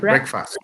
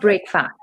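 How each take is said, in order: First: The second syllable is short and reduced. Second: Two full words, with a full fast. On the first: The first meal of the day. The speaker calls it right. "it's pronounced as breakfast" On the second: Ending a day of fasting. The speaker calls it wrong. "not break fast"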